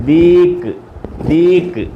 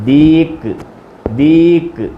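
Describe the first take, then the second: No difference in how they are said.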